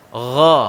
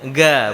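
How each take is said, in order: First: It starts with a throaty rasping gh sound. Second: It starts with a hard stop g sound. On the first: The speaker calls it right. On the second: The speaker calls it wrong.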